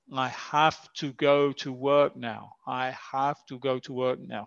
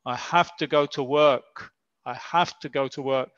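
First: "have to" said fully as hav tu, word by word; careful full have to. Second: "have to" run together as hafta; natural hafta. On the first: Teacher showing how natives do not say it. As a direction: spell out "have to" as hav tu, unreduced. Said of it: "los nativos no dicen". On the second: Teacher showing how natives really say it. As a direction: blend "have to" into a quick hafta. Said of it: "suena más como". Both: Shown as a demonstration.

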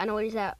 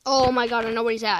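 First: Said in the usual way. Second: Excited. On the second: Real, not acted. Sudden realisation in horror game.

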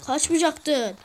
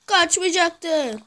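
First: Said in the usual way. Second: Slow, stretched-out reproach; drawn out. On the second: Shown as a demonstration. Gamer scolding a fleeing teammate, slow and drawn out. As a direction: drag every syllable of Kaçmayacaktın out slowly. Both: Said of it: "repeated slower".

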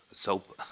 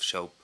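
First: "Soap." said again with a clean s; "Soap." repeated carefully, crisp s sound; corrected pronunciation. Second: "soap" slurred as "shoap", with sh; slipped pronunciation. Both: Real, not acted. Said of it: "I can't speak".

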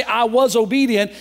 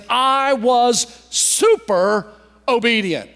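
First: Said in the usual way. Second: "super" stretched out, then a pause before "obedient"; emphatic affirmation. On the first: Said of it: "he didn't just say". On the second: Retold or imitated. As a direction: lean hard and slow on "super". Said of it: "a form of emphatically affirming".

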